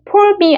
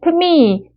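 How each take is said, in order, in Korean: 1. 'for'는 완전히, 따로 발음해요. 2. 'for'는 줄여서 'me'와 붙여 발음해요. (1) "for me 아니고요" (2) "P 정도만 하세요"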